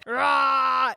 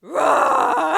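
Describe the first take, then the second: First: Loud shouted T-Rex roar; dinosaur roar. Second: High, loud crying roar; dinosaur roar. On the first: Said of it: "give us your best dinosaur roar". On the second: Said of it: "I'll do it too". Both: Pretend.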